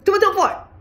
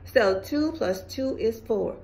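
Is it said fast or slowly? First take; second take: fast; slowly. First: It is said fast, clipped. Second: It is said slowly, at normal pace.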